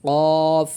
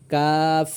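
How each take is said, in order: First: "কফ" with a heavy back-of-throat q; heavy, rounded "কফ"; thick qaf. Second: "কাফ" with a light, plain k; light front "কাফ", not thickened; light kaf. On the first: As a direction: make "কফ" thick and full, vowel held long. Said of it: "কফের উচ্চারণটা একটু মোটা হবে". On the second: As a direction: keep "কাফ" thin, vowel held long. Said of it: "কফ আর কাফটি একটু পার্থক্য". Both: Shown as a demonstration.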